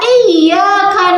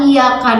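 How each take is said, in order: First: The y sound is doubled and held. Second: The y sound is single and short. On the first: Only you we worship. The speaker calls it right. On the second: It refers to the sun. The speaker calls it wrong.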